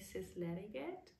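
It is pronounced the way German would read it. "I would in German say Sysleriget"

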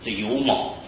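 The second word is pronounced 'mou'. This is the older Hakka reading. "某某啊就是湖，就是客家话"

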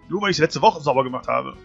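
It is said in an angry, sulky tone.

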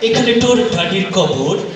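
It is spoken with a put-on British accent. "এবার আসছে একজন ব্রিটিশ নাগরিক"

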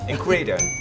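It is said with an American English accent. "ขอสำเนียงอเมริกา"

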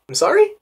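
The voice rises at the end. "notice the rising intonation"

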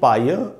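The final r sound is dropped. "British English में पढ़ेंगे"

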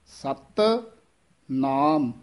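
The two words are said separately, 'sat' tight. The speaker calls it right. "सत पद है ये थोड़ा जा कस के उच्चारण करना है"

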